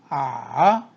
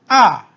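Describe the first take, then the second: First: The pitch dips low then rises. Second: The pitch falls sharply from high to low. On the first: "삼성" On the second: "사성"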